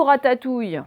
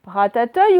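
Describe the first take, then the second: First: RATATOUILLE with a clear "ouille" ending; trying both readings. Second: RATATOUILLE said as "ratateuille", ending "euille"; trying both readings. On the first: Teacher offering the second choice, clear "ouille" in RATATOUILLE. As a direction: sound out RATATOUILLE with "ou". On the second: Teacher testing two readings, mispronounced "ratateuille". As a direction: sound out the wrong "euille" in RATATOUILLE. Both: Shown as a demonstration. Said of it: "vous essayez".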